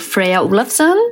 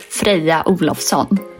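First: The name is said with an American accent. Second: The name is said with a Swedish accent.

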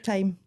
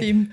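First: It is said like the word time. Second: It is said like the word theme. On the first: "Like the time" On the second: "Like theme. You get it all the time"

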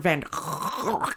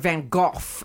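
First: The name is said in a non-British way. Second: The name is said in a British way. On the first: This is how most people say it. "as people say" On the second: This is how British people say it. "as British people say"

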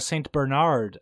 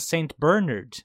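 First: It is said in an American way. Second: It is said in a British way. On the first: "as the Americans say" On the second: "as we say"

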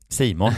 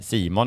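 First: It is said with a snuffly, sniffing nasal voice. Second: It is said in a plain voice.

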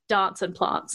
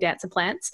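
First: It is said with an Adelaide pronunciation. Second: It is said with a Melbourne pronunciation. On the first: "the different traits that people from Adelaide versus people from Melbourne can have" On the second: "people from Melbourne say dance and plants"

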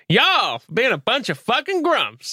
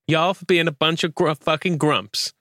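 First: It is said with an exaggerated American accent. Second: It is said with a mild American accent. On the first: "Exaggerate it" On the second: "Do your nicest American accent"

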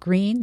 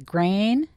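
First: It is said with a standard 'ee' vowel. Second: It is said with a Texas 'ay' vowel.

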